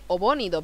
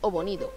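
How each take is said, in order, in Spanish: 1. El acento cae en la sílaba bo. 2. El acento cae en la sílaba ni. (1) "yo estoy leyendo Obonido porque me sale de Obonido" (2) "pero en realidad es Obonido, porque no tiene tilde"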